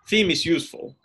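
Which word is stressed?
useful. The main stress falls on the last word. It is the neutral, typical statement. "it's the useful bit that carries the tonic"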